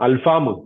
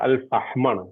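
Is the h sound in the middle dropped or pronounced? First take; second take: dropped; pronounced. First: The middle h sound is dropped. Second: The middle h sound is pronounced. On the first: The speaker calls it wrong. "നിങ്ങൾ ഇനി ഒരിക്കലും അൽഫാം എന്ന് പറയരുത്" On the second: The speaker calls it right.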